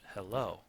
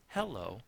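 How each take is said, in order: First: The stress is on the second syllable. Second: The stress is on the first syllable. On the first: The speaker calls it right. "includes the emphasis on the second syllable" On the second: The speaker calls it wrong. "We don't pronounce it hello"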